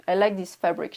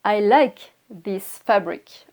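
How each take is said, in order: First: Said in the usual way. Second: Slow, careful and louder for learners; teacher's slow, clear example; slow model sentence. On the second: Shown as a demonstration. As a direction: spell it out slowly word by word. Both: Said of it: "je peux dire".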